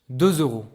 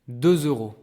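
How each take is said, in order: No difference in how they are said.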